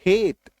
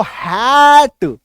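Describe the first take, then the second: First: "हेट" with a short, lighter ay vowel; correct pronunciation. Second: "हैट" with a long, loud open ae vowel; wrong pronunciation. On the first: Teacher giving class the right reading, light ay in "हेट". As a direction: say "हेट" softly with a closed ay, as in hate. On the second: Teacher showing class how not to say hate, drawn-out wrong "हैट". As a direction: stretch "हैट" wide and loud, as in English hat. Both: Shown as a demonstration. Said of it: "नहीं बोलेंगे".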